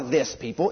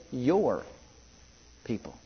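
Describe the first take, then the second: First: "this people" with "this" set apart, said low and dismissive; stress on this. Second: "your people" with "your" leaned on, said soft and low; stress on your. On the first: Preacher contrasting God's words, "this" stressed coldly. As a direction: lean on "this" in "this people". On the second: Preacher showing Moses' plea, "your" stressed softly. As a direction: press gently on "your" in "your people". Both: Acted. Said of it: "There's a difference".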